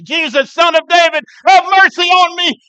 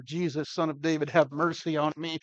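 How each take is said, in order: First: Desperate shout. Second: Said in the usual way. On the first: Retold or imitated. Blind beggar shouting for Jesus over the crowd, desperate cry. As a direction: cry out at full voice, much higher. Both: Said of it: "he gets louder and louder".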